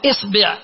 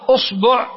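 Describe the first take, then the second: First: The first vowel is i. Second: The first vowel is u. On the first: "ثم تأتي إلى الكسرة تقول إصبع" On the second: "ثم تأتي إلى الضمة فتقول أصبع"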